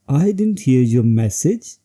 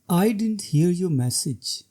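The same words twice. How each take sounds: First: The voice rises at the end. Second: The voice falls at the end. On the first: It sounds questioning or defensive. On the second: It shows explanation or regret.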